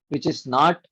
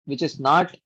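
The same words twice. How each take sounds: The two takes are said the same way.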